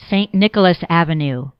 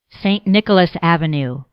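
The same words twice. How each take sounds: The two takes are said the same way.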